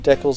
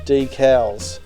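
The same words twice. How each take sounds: First: The word is said the Canadian way. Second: The word is said the non-Canadian way. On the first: This form is accepted only in Canada. "I believe in Canada, decals is acceptable" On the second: This form is used everywhere else. "everywhere else in the world it is decals"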